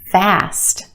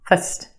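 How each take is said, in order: First: The vowel is a full, clear vowel. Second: The vowel is a quick, reduced schwa.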